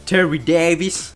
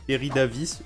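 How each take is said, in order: First: The name is said with an English accent. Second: The name is said with a French accent.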